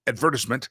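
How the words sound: The word is said in a British accent.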